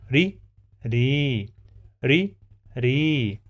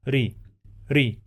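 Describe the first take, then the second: First: Ri with a long stretched ii; long vowel. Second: Ri with a short, clipped i; short vowel. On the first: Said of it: "when I have long vowel, it will be ri". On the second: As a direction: keep the i in Ri short. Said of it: "when I just say ri, it's a short vowel". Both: Shown as a demonstration.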